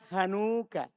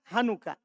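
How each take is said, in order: First: The vowel after 'han' is long and drawn out. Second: The vowel after 'han' is short and clipped. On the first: The speaker calls it wrong. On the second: The speaker calls it right.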